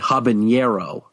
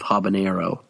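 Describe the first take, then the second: First: The n is said as a 'ny' sound. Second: The n is said as a plain n. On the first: "some people will, will say habanero" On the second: "instead of habanero"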